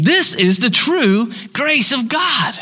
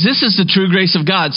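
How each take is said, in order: First: "This is the true grace of God" slow, higher, each word weighted; emphatic slow proclamation. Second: Said in the usual way. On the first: Shown as a demonstration. Preacher urges church to believe, slow and emphatic. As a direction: preach "This" hard and draw the line out. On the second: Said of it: "And so he says".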